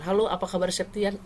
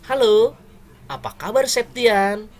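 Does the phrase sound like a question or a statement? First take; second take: statement; question. First: It is said with a flat, statement-like tune. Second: It is said with a questioning tune. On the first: The speaker calls it wrong. "Logatnya bukan" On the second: The speaker calls it right. "Septian itu per- sebuah pertanyaan"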